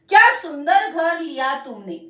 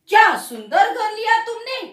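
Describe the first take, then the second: First: It is said as an exclamation. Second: It is said as a question. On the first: The speaker admires the house. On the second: The speaker asks about the house.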